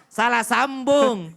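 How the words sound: It is said firmly and curtly.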